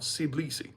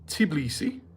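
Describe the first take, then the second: First: The name begins with an s sound. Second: The name begins with a t sound. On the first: "like a C sound" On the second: "two of them were pronouncing it Tbilisi"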